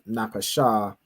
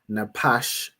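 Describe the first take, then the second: First: The word ends with an added vowel sound. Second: The word ends on a consonant sound. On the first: The speaker calls it wrong. "instead of Napasha" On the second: The speaker calls it right. "to pronounce this as Napash"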